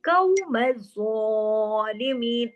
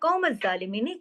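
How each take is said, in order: First: The first consonant is a deep, heavy q. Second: The first consonant is a light, front k. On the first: The speaker calls it right. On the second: The speaker calls it wrong.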